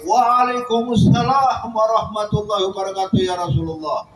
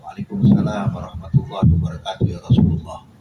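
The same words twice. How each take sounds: First: Higher, ringing answer in unison; called out together. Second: Whispered, held-back answer to the greeting; hushed reply. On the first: Whole household finally answering the Prophet, calling out. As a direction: call the reply out all at once. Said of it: "serempak satu rumah tuh teriak". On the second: Household answering the Prophet's greeting in a whisper. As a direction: answer under your breath so he can't hear. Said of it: "cuma suaranya dipelanin". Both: Retold or imitated.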